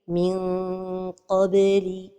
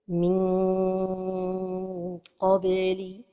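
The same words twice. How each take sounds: First: The tongue stays near but not touching the palate. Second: The tongue touches the palate during the nasal. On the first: The speaker calls it right. "la prononciation correcte" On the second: The speaker calls it wrong. "La première erreur est de coller la langue"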